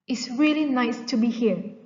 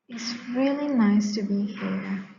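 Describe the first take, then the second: First: It is loud, low and sarcastic. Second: It is quiet, low and reluctant.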